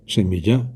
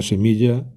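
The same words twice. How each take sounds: First: Semilla stressed on the last syllable, semillá; wrong stress. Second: Said in the usual way. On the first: Shown as a demonstration. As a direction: shift the accent onto the final -lla of semilla. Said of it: "hago esas palabras agudas". (semilla con acento agudo, semillá) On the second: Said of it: "sonaría más o menos así".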